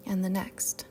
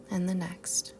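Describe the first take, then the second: No difference in how they are said.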